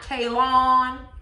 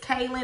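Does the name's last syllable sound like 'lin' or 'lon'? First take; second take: lon; lin. First: The last syllable sounds like 'lon'. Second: The last syllable sounds like 'lin'. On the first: The speaker calls it wrong. "not Kaylon. How Antoinette has been pronouncing it" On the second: The speaker calls it right. "It's Kaylin"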